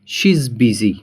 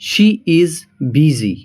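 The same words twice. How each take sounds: First: She is is contracted into one syllable. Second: She is is said as two full words.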